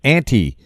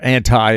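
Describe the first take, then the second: First: It is pronounced in a non-American way. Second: It is pronounced in an American way.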